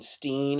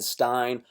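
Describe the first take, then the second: First: The vowel sounds like 'ee' in 'seen'. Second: The vowel sounds like 'eye' in 'sign'. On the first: The speaker calls it wrong. "nobody wants to have the Steen" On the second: The speaker calls it right. "oh no no no no no no. Stein, bro"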